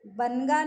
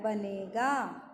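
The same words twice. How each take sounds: First: बनगा said as "ban-ga", no ए; न straight into गा in बनगा; wrong, missing vowel. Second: बनेगा slow and lower, with long "ne"; stretched ने in बनेगा; full ए vowel. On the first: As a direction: say बनगा in two quick beats. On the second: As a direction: say बनेगा as "ba-nay-gaa", drawn out. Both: Shown as a demonstration. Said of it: "बनगा नहीं होता है".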